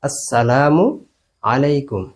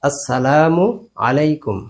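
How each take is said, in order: No difference in how they are said.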